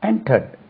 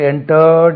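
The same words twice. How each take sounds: First: The ending of the word is kept short. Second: The ending of the word is drawn out. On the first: The speaker calls it right. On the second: The speaker calls it wrong.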